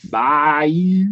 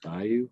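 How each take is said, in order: First: Higher, louder southern "Bayou"; southern accent. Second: Said in the usual way. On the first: Shown as a demonstration. Co-host retries after a no, stronger southern accent. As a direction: lay the southern accent on thick. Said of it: "in his most southern accent". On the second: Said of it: "Do I sound southern when I say that?".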